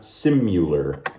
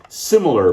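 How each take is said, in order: First: The second syllable is said as 'myoo'. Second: The second syllable is said as a short 'mih'. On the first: The speaker calls it wrong. "not simular. That's my pronunciation pet peeve" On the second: The speaker calls it right. "Similar, mind you"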